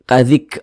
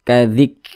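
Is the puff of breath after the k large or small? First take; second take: large; small. First: The final k releases a large burst of breath. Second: The final k releases a small puff of breath. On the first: The speaker calls it wrong. "ah jangan seperti itu. Kecil saja" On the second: The speaker calls it right. "Seperti memercik begitu, tapi kecil saja percikannya"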